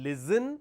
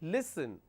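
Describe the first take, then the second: First: The middle consonant is a buzzing z sound. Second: The middle consonant is a hissing s sound. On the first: The speaker calls it wrong. "you are replacing the s with a z sound, which is incorrect" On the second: The speaker calls it right. "So we have a s sound here"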